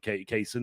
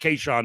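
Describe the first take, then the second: First: The second syllable begins with an 's' sound. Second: The second syllable begins with an 'sh' sound. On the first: "I guess you pronounce it Kayson" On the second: "it's Kayshawn to me because that's what it looks like"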